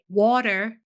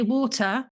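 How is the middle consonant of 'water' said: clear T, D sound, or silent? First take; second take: D sound; clear T. First: The middle T sounds like a D. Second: The middle T is pronounced clearly. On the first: The speaker calls it wrong. "like there's a D in it" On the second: The speaker calls it right. "we in England like to pronounce our T's"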